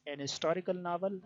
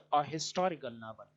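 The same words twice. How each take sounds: First: "an historical", h dropped; "an historical" with the h left silent. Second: "a historical", h sounded; "a historical" with a clear h; a with spoken h. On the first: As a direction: say "an historical" without the h. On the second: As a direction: say "a historical" with the h breathed. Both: Shown as a demonstration. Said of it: "some say it".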